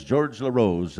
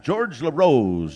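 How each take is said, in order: First: Said in the usual way. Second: Drawn-out announcer call. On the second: Real, not acted. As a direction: stretch the name out loud and slow like a powwow MC. MC calls name, then repeats.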